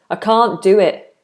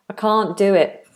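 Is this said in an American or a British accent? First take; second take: British; British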